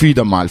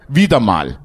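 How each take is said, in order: First: Said in the usual way. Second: "Wieder mal" said low and drawn, weight on "Wieder"; stress on wieder mal. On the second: Shown as a demonstration. Preacher mocking a rare listener's "Wieder mal" with heavy stress on "Wieder". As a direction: lean hard on "Wieder mal" so the irony lands. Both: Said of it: "Die Betonung liegt auf wieder mal".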